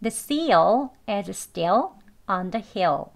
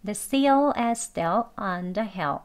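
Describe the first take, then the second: First: "seal", "still", "hill" slow, each with a full dark L; careful learner pronunciation. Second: "seal", "still", "hill" with weak L, tongue tip barely raised; slow but let the L in "seal", "still", "hill" fade; conversational pronunciation. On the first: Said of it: "배우는 발음 해볼게요". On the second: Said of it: "대화 발음하는 혀 끝만 살짝 올리는 발음". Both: Shown as a demonstration.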